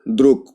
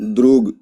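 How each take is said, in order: First: The final consonant is a voiceless k. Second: The final consonant is a voiced g. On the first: "जब प्रोनाउंस करेंगे तो क्या हो जाएगा?" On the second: "ये क्या है?"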